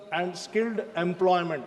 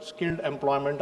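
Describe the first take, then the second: First: Said in the usual way. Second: Skilled said lower and deliberate, weight on the word skilled; stress on skilled. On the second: Shown as a demonstration. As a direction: lean into the word skilled, then let employment fall. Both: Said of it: "I would like to emphasize on this word".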